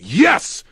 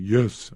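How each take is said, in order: First: It is yelled loudly and strongly. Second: It is said quietly and weakly.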